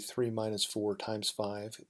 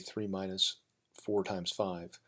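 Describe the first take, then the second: First: Three minus four is said quickly together. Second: Four times five is said quickly together.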